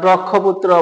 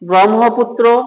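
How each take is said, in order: First: The middle cluster is said as 'kkh'. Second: The middle cluster is said as 'hm'. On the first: The speaker calls it wrong. "ক্ষীয় মনে করে অনেকে এটাকে বলে" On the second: The speaker calls it right. "এই উচ্চারণ হবে"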